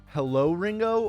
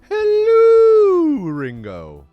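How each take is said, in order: First: It is said in a normal voice. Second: It is said in a Mrs. Doubtfire-like voice.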